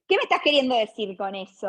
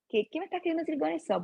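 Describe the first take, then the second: First: It sounds confrontational, like an accusation. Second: It sounds genuinely puzzled, like sincere confusion.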